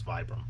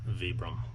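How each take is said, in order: First: It is said the common American way. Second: It is said the way used everywhere else. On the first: This is the habitual local usage. The speaker calls it wrong. "here in the U S, that's how we pronounce it" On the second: This is the proper usage. The speaker calls it right. "Properly everywhere else in the world"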